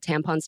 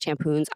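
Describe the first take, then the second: First: The second vowel sounds like 'on'. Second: The second vowel sounds like 'oon'. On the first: The speaker calls it right. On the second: The speaker calls it wrong.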